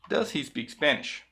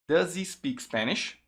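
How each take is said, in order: First: The h of 'he' is pronounced separately. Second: The z sound links into 'he' with silent h.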